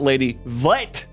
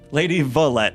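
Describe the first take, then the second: First: The name is squeezed into one syllable. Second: The name is said with two syllables. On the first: The speaker calls it wrong. "not Lady Vlet" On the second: The speaker calls it right.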